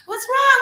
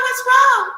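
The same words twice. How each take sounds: First: High squeaky cry of worry; a panicked falsetto plea, loud; anxious gods. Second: High loud falsetto fretting; anxious gods. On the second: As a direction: fret in a squeaky falsetto. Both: Acted. Gods crying over Ra.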